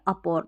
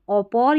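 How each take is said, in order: First: The first vowel is pronounced as 'a'. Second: The first vowel is pronounced as 'o'. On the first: "ओपौर या अपौर दोनों तरीके से पढ़ सकते हैं" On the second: "ओपौर या अपौर दोनों तरीके से पढ़ सकते हैं"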